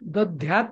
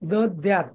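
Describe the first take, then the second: First: The second consonant is a breathy 'dh'. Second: The second consonant is a plain 'd'. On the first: The speaker calls it wrong. "दध्यात नाही" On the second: The speaker calls it right. "दद्यात दल आहे द्यात"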